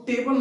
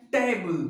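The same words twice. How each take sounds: First: टेबल as plain "TAY-bal"; full A in the last syllable of टेबल; wrong table pronunciation. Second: टेबल drawn into "TEY-bul"; gliding first vowel and weak ending in टेबल; correct table pronunciation. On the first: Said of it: "इसको टेबल नहीं पढ़ते हैं". (टेबल को "टे-बल" बोलें) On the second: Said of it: "इसको pronunciation क्या है". (टेबल को "टेइ-बुल" बोलें) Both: Shown as a demonstration.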